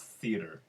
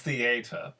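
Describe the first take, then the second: First: The word is said in an ordinary accent. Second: The word is said in a put-on accent. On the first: "when you just are in regular conversation like a regular human being" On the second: "when you say it with that accent, it is theater"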